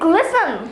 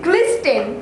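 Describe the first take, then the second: First: The t sound is silent in the word. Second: The t sound is pronounced in the word. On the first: The speaker calls it right. "it'll be glisten" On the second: The speaker calls it wrong. "Oh no"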